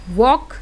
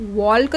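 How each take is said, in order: First: वॉक with a silent L; correct pronunciation. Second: वॉल्क with the L sounded, shown as the mistake; wrong pronunciation. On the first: Teacher giving students the right reading वॉक. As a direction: say वॉक and drop the L. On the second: Teacher showing students the wrong reading वॉल्क. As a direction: say वॉल्क with a clear L as the wrong take. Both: Shown as a demonstration. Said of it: "इसको वॉल्क तो नहीं पढ़ते हो".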